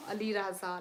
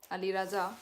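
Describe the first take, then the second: First: राजा said with a "z", as "raa-zaa"; corrected name. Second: राजा said with a "j" sound; first reading of राजा. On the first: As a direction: buzz a z in the middle of राजा. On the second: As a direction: say राजा as "raa-jaa". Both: Real, not acted. Corrects own reading of the name.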